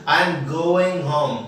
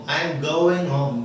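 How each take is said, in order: The two takes are said the same way.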